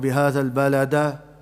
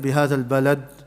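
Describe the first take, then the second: First: The final d is followed by a full vowel. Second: The final d is clipped with no echo. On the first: "we won't recite it" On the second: "we won't recite it"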